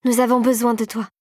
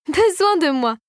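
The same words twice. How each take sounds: First: Understated, earnest plea; imploring. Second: High-pitched mocking echo; sneering. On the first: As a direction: plead simply for help. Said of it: "implora Clara". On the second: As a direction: throw it back with a scornful sneer. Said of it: "ricana la fée Rosée". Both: A narrator's reading.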